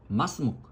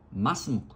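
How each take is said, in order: First: The words run together with the ending cut short. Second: The words run together with the ending cut short.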